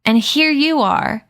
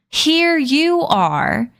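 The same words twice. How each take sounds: First: Here stressed high and falling, slowed; accusing stress. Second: Here stretched very slowly, rising higher; accusing repeat. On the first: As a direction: point the finger with here. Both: Acted. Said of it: "trembled with outrage".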